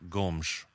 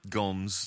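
First: The name is said with a Portuguese pronunciation. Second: The name is said with an English pronunciation. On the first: The speaker calls it right. "apparently it should be pronounced Gomes" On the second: The speaker calls it wrong. "we might just fall into Gomes"

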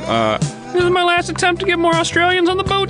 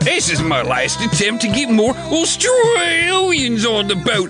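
First: It is read in the speaker's ordinary accent. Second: It is said in a put-on Australian accent.

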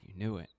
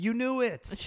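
First: It is said quietly and grudgingly. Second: It is said loudly.

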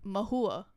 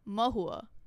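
First: It is said in an American English way. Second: The same.

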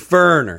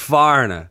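First: It is said in a Southern accent. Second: It is said in a Long Island accent.

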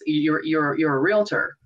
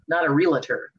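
First: The word is said with two syllables. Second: The word is said with three syllables. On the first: The speaker calls it right. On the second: The speaker calls it wrong.

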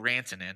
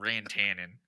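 First: The name is said in a Finnish way. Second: The name is said in a Midwestern American way. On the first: The speaker calls it right. "His name is Mikko Rantanen" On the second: The speaker calls it wrong. "not Rantanen ... the most Midwestern way you could have pronounced"

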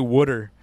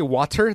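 First: It is said like 'wooder', in an East Coast accent. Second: It is said with a plain, standard pronunciation. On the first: "They say water. Like W-U-D-D-U-E-R? I'm talking about the East Coast people" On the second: "They don't say water"

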